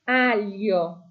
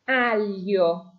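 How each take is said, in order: Both takes have the same delivery.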